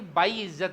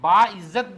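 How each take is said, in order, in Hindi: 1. पहला अक्षर 'ai' की ग्लाइड पर खत्म होता है। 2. पहला अक्षर एक सामान्य लंबा 'aa' है। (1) "बाई इज्जत नहीं" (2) "बा इज्जत बोलना चाहिए"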